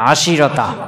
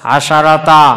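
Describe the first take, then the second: First: An i vowel comes after the sh sound. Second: An a vowel comes after the sh sound. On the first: One tribe says it this way. "সিনের জের দিবে" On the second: Four open vowels in a row make it heavy to say. "সবগুলো একসাথে জবর পড়তে একটু টান দিতে ভারী হয়েছে"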